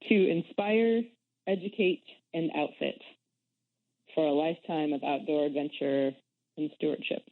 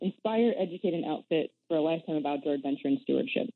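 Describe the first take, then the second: First: It is said more slowly. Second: It is said at normal speed.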